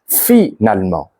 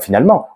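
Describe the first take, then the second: First: Each of the four syllables is clearly pronounced. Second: Some syllables are run together or reduced. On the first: The speaker calls it right. "vous devez mettre en évidence toutes ces syllabes" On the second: The speaker calls it wrong. "On ne dira pas"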